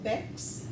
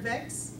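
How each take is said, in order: First: The word begins with a B sound. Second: The word begins with a V sound. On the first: "use of the B sound instead of V" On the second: "the word vex will become"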